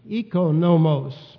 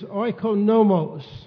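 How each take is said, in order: First: It uses the modern Greek pronunciation. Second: It uses the older, non-modern Greek pronunciation. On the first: "or in the modern Greek pronunciation" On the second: "The Greek word translated steward is"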